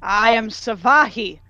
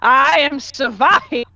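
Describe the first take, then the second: First: Slow, measured self-announcement in usual pitch; moderately pompous, stately delivery; pompous introduction. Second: Slow, pompous proclamation, pitch lifted; booming announcement. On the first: Warrior naming herself to the guards, pompous introduction. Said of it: "pompously than the first time". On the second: Warrior naming herself a second time, booming and pompous. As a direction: boom it out grandly. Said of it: "an even more booming". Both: Acted.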